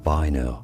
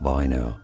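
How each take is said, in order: First: The name is said with German pronunciation. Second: The name is said with German pronunciation.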